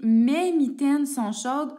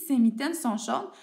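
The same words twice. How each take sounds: First: Emphatic example, louder. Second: Said in the usual way. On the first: Shown as a demonstration. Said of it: "Donc, j'essaie". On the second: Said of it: "quand je regarde ma phrase".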